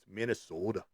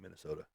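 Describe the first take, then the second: First: The word is said in a lively, exaggerated way. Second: The word is said in a flat, plain way. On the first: The speaker calls it right. "It's Minnesota" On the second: The speaker calls it wrong. "that's just so boring"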